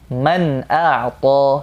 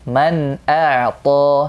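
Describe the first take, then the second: The two takes are said the same way.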